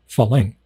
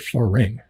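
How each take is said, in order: First: The second consonant is an L sound. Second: The second consonant is an R sound. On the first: "they say falang" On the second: "they can't say farang"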